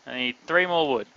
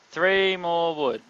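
First: Said in the usual way. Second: "three" stretched and leaned on, slowly; slow stress on three. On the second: Shown as a demonstration. Counting wood needed for a build, slow stress on "three". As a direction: spell out "Three more wood" slowly, weight on "three".

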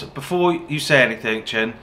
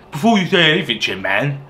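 First: Said in the usual way. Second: Silly mock voice. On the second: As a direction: repeat it as a goofy, mush-mouthed imitation. Repeats quote in silly voice.

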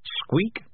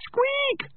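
First: High rising squeak; mouse squeak. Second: Very high-pitched mouse squeal; screaming mouse. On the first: Shown as a demonstration. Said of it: "does not cut the mustard". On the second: A narrator's reading. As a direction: squeak it like a terrified tiny mouse. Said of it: "screamed the mouse".

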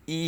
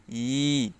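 First: ই clipped short like a hamza sound; ই cut off short, as students wrongly say it. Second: ই drawn out slowly as a long stretched vowel; ই stretched out in full length, the proper way; correct long i. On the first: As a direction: say ই quick and short, the mistaken way. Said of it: "এখানে ই বলা যাবে না". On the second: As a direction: hold the ই long and slow. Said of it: "বলতে হবে ই". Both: Shown as a demonstration.

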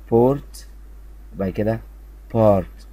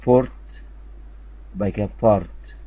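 Both takes have the same delivery.

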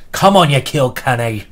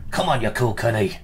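First: Loud, hammed-up fake Irish accent cheering the opening; a cheering Irish fan, badly faked, louder. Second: A mock Irish brogue, toned down; bad Irish accent. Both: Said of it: "Very bad Irish accent there".

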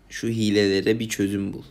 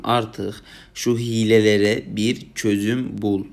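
First: Said in the usual way. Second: "Artık şu hilelere bir çözüm bul" drawn out very slowly with weight on "şu"; slow pleading appeal. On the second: Shown as a demonstration. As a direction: plead word by word, slow and heavy on "şu". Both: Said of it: "buradan sana sesleniyorum".

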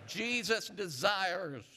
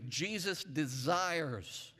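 First: Drawn-out Jesus desires, pitched higher; slow rising call to the church. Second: Slow, drawn-out Jesus desires; slow preacher's call; slow call-and-response. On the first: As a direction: lift it and stretch it so they echo back. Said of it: "Say it again". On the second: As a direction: stretch each word for the congregation to repeat. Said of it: "let's say it this way". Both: Shown as a demonstration.

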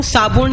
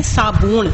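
First: ਸਾਬੂਣ with a short second vowel, "saabuṇ"; mispronounced ਸਾਬੂਣ. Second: ਸਾਬੂਣ with a long second vowel, "saabooṇ"; correct ਸਾਬੂਣ. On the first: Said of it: "ਉਹਨੂੰ ਸਾਬੂਣ ਨਹੀਂ ਪੜਨਾ". (ਸਾਬੂਣ ਨੂੰ ਔਂਕੜ ਨਾਲ "ਸਾਬੁਣ" ਬੋਲੋ) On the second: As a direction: draw out the "oo" in ਸਾਬੂਣ. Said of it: "ਸ਼ੁੱਧ ਉਚਾਰਨ ਹੈ ਸਾਬੂਣ". (ਸਾਬੂਣ ਨੂੰ ਲੰਮੇ ਦੁਲੈਂਕੜ ਨਾਲ ਬੋਲੋ) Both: Shown as a demonstration.

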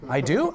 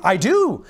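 First: Doubtful question. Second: Louder, pleased agreement; convinced realization. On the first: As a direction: ask it as if unsure of the compliment. Flattered husband at first doubtful. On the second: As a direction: agree as if it just dawned on you. Flattered husband now convinced. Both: Acted.

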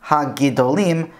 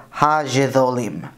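First: HA-GIDOLIM with hard g and d; hard g, plain d in Ha-Gidolim; modern Hebrew pronunciation. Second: HA-GIDOLIM said ha-jee-tho-leem; Yemenite pronunciation. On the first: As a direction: say Ha-Gidolim as ha-gee-do-leem. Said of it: "what we end up with is not". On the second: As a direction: slowly say Ha-Gidolim with j and voiced th. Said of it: "and it's a J". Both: Shown as a demonstration.

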